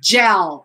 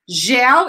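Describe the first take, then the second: First: The word is said with an English pronunciation. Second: The word is said with a Portuguese pronunciation. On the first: "In English, it's not gel. It's gel" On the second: "Gel in, in Portuguese"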